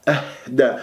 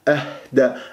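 Both takes have the same delivery.

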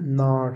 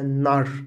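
First: The vowel is long. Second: The vowel is short. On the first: The speaker calls it right. "لكنها نار فيها مد" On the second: The speaker calls it wrong. "لو قرأناها كما كتبناها لقلنا نار"

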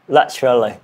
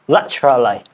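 First: It is said in a British accent. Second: It is said in a British accent.

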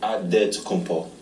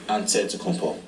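First: The name is said with a 'd' sound. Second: The name is said with an 'nt' sound. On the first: "you gotta say with a D" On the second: "you say with an NT"

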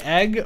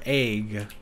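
First: The vowel is a short 'eh' sound. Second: The vowel is a long 'ay' sound.

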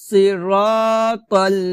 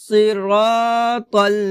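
No difference in how they are said.

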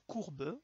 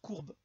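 First: The final e is pronounced. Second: The final e is silent. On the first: The speaker calls it right. "Donc ils vont se prononcer. ... on va dire courbe" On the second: The speaker calls it wrong. "on va pas dire courbe"

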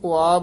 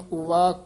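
First: The word is said without a v sound. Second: The word is said with a v sound. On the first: The speaker calls it wrong. "ਕਈ ਪਾਠੀ ਸਿੰਘ ਉਆ ਬੋਲ ਜਾਂਦੇ ਹਨ" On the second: The speaker calls it right. "ਐੜਾ ਲਾ ਕੇ ਵਾਵਾ ਉਚਾਰਨ ਕਰਨਾ"

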